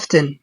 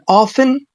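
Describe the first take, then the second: First: The T sound is clearly pronounced. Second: The T sound is left out. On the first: "بحرف T" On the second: "بدون حرف T"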